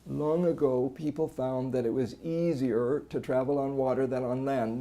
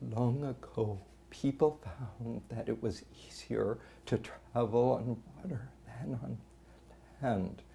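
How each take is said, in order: First: Constant strain throughout, with no voice stoppages. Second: Voice leaks air, struggling to keep folds closed. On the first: "No phonatory arrest, but there's just this constant strain" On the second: "the person's working to keep the vocal folds together"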